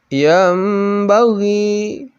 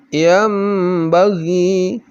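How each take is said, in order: No difference in how they are said.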